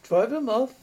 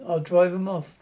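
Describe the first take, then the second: First: Rising, incredulous echo of Drive 'em off; disbelieving echo, lifting on 'em; asked in disbelief. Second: Said in the usual way. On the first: A narrator's reading. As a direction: throw the words back as a doubting question. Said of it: "Richards asked". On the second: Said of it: "Scone muttered".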